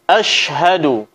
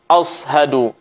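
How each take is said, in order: First: The middle consonant is a clear sh sound. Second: The middle consonant sounds like an emphatic s. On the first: The speaker calls it right. "Suara shin yang keluar dari tengah lidah" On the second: The speaker calls it wrong. "yang menyerupai suara huruf sad"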